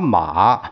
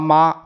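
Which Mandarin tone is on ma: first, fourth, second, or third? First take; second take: third; first. First: It is said with the third tone. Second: It is said with the first tone. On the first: "一二三四声" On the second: "一二三四声"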